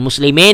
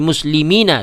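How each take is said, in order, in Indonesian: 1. Kata ini berakhir pada n tanpa vokal akhir. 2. Kata ini berakhir dengan a pendek setelah n. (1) "Bukan muslimin ya" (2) "tapi muslimina"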